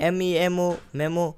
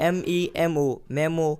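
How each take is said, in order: Both takes have the same delivery.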